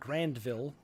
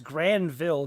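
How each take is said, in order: First: It is said with a d sound. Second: It is said without a d sound. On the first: The speaker calls it wrong. "not Grandville" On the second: The speaker calls it right. "I'm pretty sure it's Granville"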